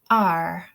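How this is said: The vowel ends with a strong r sound. "I say ar"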